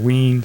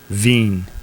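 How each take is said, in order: First: It is said with a w and long ee. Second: It is said with a v and long ee. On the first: The speaker calls it wrong. "Wine or ween, something like that" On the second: The speaker calls it right. "I looked it up, and it's it's veen"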